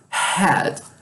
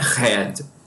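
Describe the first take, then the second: First: It begins with a breathy, airy h sound. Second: It begins with a throaty r-like sound. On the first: The speaker calls it right. "Esse som é aspirado, mas tem mais ar" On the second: The speaker calls it wrong. "não é como o nosso R de rato, não é head"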